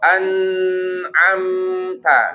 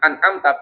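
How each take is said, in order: First: The n sound is drawn out for too long. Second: The n sound stops abruptly with no flow. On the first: "tapi jangan juga jadi panjang" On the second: "berarti dia apa jatuhnya syiddah"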